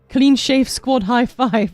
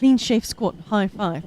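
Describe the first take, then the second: First: The phrase is said at a normal pace. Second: The phrase is said quickly.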